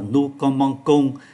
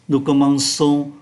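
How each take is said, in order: First: The consonant before the last syllable is a k. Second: The consonant before the last syllable is an s. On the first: The speaker calls it wrong. "ngôi thứ nhất số nhiều chúng ta phát âm là nu comong cong, c đi với o là cờ" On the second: The speaker calls it right. "Ccd là một ký tự dùng để phát âm là sờ"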